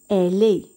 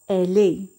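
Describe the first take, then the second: The two takes are said the same way.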